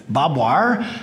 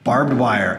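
First: It is said the Texan way, as bob wire. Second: It is said with a standard pronunciation.

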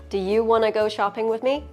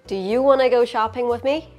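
No difference in how they are said.

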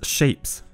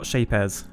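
First: It sounds like the ordinary English word shapes. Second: It has an odd ending, unlike ordinary shapes. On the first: The speaker calls it right. "it's shapes" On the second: The speaker calls it wrong. "not shapez"

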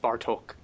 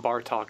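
First: The name is said with a Hungarian-style pronunciation. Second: The name is said with an English-style pronunciation. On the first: The speaker calls it right. "it's Bartok" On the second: The speaker calls it wrong. "people will tell you it's not Bartok"

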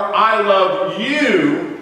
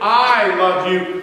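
First: The stress is on "you". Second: The stress is on "I".

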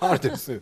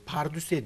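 First: The word ends with a 'ü' vowel sound. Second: The word ends with an 'e' vowel sound. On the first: The speaker calls it right. "Kelimenin doğrusu pardösü" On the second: The speaker calls it wrong. "pardüse diyor"

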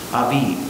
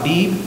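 First: The word is said with V sounds. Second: The word is said with B sounds.

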